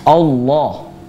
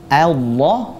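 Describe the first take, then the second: First: The first vowel is thick, sounding like 'o'. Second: The first vowel is thin, sounding like 'a'. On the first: The speaker calls it wrong. "Contoh bacaan yang salah, yaitu dengan menebalkan fathahnya" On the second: The speaker calls it right. "harusnya yang betul adalah A"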